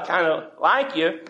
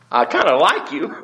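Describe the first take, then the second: First: Said in the usual way. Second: Laughing through I kinda like you; sheepish laugh. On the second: Pretend. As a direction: backpedal with a sheepish chuckle. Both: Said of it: "I used too strong a word".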